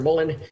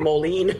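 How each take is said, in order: First: The surname is pronounced like Mullen. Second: The surname is pronounced like Moline. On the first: The speaker calls it wrong. "it pronounces it Mullen or Mullen" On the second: The speaker calls it right. "but it's actually Moline"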